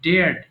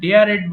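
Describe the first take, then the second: First: The word is said as one syllable. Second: The word ends with an extra 'ed' syllable. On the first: The speaker calls it right. "এটা simply ডেয়ার্ড" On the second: The speaker calls it wrong. "এটা অনেকে ভুল করে ডেয়ারেড বলে"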